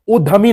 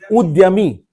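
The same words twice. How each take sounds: First: उद्यमी said as "uddhami", with no Y; wrong DH sound. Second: उद्यमी said as "ud-ya-mi", Y clearly sounded; half D, full Y. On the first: Teacher rejecting the common mistake, उद्यमी said as "uddhami". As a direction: drop the Y from उद्यमी, making it "uddhami". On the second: Teacher correcting the class, उद्यमी said as "ud-ya-mi". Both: Shown as a demonstration. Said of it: "उद्यमी नहीं".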